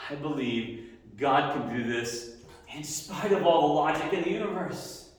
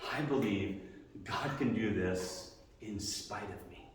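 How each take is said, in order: First: "I believe God can do this", rising to a higher, stronger close on "all the logic in the universe"; emphatic second take, growing higher; building declaration. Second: I believe God "can" do this, said softly and slowly with stress on "can"; hushed first take of the creed; quiet, slow statement of faith. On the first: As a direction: build it up, climbing toward "all". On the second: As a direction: say it low, slow, leaning on "can". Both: Shown as a demonstration. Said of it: "Faith is".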